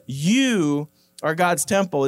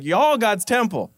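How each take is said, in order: First: Said in the usual way. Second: Southern twang, "Y'all" drawn out as one syllable "yawl". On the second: Shown as a demonstration. Preacher recasts the verse for the church in Southern "Y'all". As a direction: give it a folksy Southern "Y'all" and drop the "are". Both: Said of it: "it's, it's southern".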